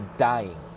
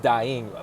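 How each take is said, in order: First: The vowel is bent to rhyme with 'by'. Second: The vowel is said in the ordinary way. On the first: "He pronounced it in a different way where it rhymes" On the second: "But it's dying"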